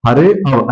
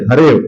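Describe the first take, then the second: First: हरे अव said as two separate words with a break; separated form हरे अव, slowly spelled out; split reading. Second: हरेव run together as one word with no अ sound; combined sandhi form हरेव; joined reading. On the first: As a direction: pronounce हरे, pause, then अव. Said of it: "जब हम इसको विच्छेदित करते हैं तब पढ़ेंगे". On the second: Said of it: "क्या पढ़ेंगे?". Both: Shown as a demonstration.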